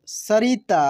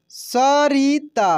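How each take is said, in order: First: Said in the usual way. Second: सरिता slowly as sa, ri, taa; syllable by syllable. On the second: Shown as a demonstration. Teacher reading for learners, सरिता slowly syllable by syllable. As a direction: stretch out each syllable of सरिता. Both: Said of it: "अब direct पढ़ते हैं".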